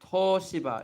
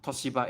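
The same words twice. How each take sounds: First: TOSHIBA with a long, held first O. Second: TOSHIBA with a short, quick O; short first vowel. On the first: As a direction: stretch the O in Toshiba, stressed and louder. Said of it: "It gets absorbed into the O". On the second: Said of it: "it's not Toshiba". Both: Shown as a demonstration.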